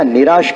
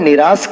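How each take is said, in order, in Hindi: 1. यह शब्द 'sh' ध्वनि से खत्म होता है। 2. यह शब्द सादे 's' ध्वनि से खत्म होता है। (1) "दोनों में जमीन आसमान का फर्क हो जाता है" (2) "निराश स है, स श नहीं है"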